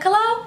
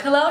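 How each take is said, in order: First: Much higher mock hello; imitating light voice. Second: Said in the usual way. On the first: Boy's hello on the phone, imitated light voice. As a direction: pitch it way up to mimic him. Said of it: "his voice sounded light as fuck". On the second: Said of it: "And I'm like".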